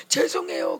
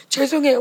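First: "죄송해요" breathed out weepily, half voiceless; tearful apology. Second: Said in the usual way. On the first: Retold or imitated. Young person crying to God, whispering "죄송해요" tearfully. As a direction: sob "죄송해요" through tears. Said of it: "울고". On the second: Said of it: "막 이런".

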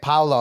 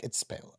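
First: "Paolo" said as PAO-lo, first syllable like "cow"; mock his Americanised "Paolo", PAO-lo; mispronounced name. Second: "Paolo" as pay-OH-lo, whispered aside; correct pronunciation. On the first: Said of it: "he's like". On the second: Shown as a demonstration. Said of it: "I'm like".

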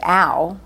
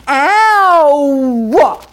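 First: Said in the usual way. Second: Long, much higher and louder Queens-style ow; Silvana's Queens ow. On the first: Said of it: "she would have not said ow". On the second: Retold or imitated. Actress showing the neighbor's Queens ow, loud and drawn out. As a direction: stretch ow into a loud Queens wail. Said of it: "Say ow like Silvana, my neighbor".

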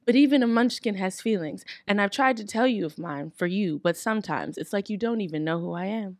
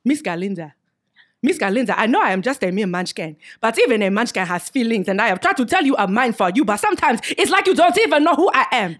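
First: Heartfelt. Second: Put-on louder, rising African accent reading. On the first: Acted. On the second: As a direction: play Boq in an African accent. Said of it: "pronounce this like you would in a different accent".

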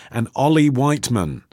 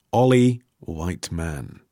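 First: Said in the usual way. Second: "Ollie Whiteman" repeated slowly and lower, savouring each word; slow savoring repeat. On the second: Shown as a demonstration. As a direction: linger on "Ollie Whiteman" as if tasting the name. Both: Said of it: "very nearly a great name".

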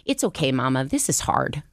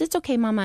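First: Barely voiced son; nearly plain son reassuring mom; son's voice. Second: Put-on quoting a small girl, pitched much higher; higher child's voice forgiving mom; little daughter's voice. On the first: Son Alec comforting his mom, almost plain voice. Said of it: "And Alec goes". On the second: Little Sandra forgiving her mom at bedtime, high child voice. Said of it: "And Sandra goes".

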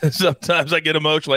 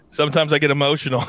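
First: Laughing. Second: Said in the usual way. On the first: Real, not acted.

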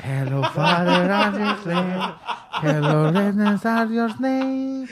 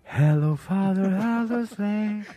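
First: Loud broken English through laughter; hammed-up greeting, laughing hard; laughing mock English. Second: Loud, drawn-out broken English; hammed-up broken English greeting; mock English. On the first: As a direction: repeat the line cracking up, slow. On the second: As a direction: belt it out in clumsy English, slow. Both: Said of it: "escuchó".

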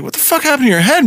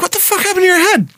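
First: Fast, higher shocked question; startled barber asking. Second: High, fast, shocked question; a barber gasping at the wound; high startled barber voice. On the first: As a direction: blurt it out in surprise. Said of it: "the guy's like". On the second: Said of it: "he's like". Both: Retold or imitated.

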